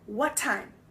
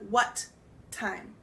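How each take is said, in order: First: The two T sounds blend into one. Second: The two T sounds are said separately. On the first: "it almost makes one word" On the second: "instead of"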